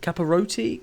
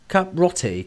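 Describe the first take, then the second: First: The name is said with four syllables. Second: The name is said with three syllables. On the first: The speaker calls it wrong. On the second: The speaker calls it right. "I think that's how you pronounce it"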